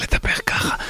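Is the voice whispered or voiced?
whispered. It is spoken in a whisper. The speaker calls it wrong. "מאשר לדבר ככה"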